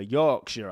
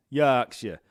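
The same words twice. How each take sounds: First: Said in the usual way. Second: "Yorkshire" in broad Yorkshire, opened out to "Yaakshire"; louder, exaggerated Yorkshire accent on "Yorkshire". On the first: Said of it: "it's a Yorkshire accent". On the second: Shown as a demonstration. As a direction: punch "Yorkshire" with a broad Yorkshire vowel. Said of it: "We talk like this up there".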